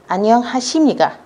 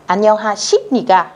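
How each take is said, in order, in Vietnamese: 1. Âm tiết 십 được phát âm với âm m. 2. Âm tiết 십 được phát âm với âm p.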